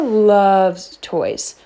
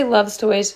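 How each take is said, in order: First: "loves" drawn out slowly for emphasis; stress on LOVES. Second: Said in the usual way. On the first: Shown as a demonstration. Trainer on the dog's toy habit, "loves" slow and stressed. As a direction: stretch the word "loves" to show how much. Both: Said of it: "When I say loves toys".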